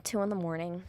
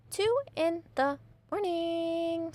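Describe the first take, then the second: First: Said in the usual way. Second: "Two in the morning" high and very slow; sing-song, drawn-out "morning"; exasperated emphasis. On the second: Real, not acted. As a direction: stretch every word of "Two in the morning". Repeats the hour in disbelief.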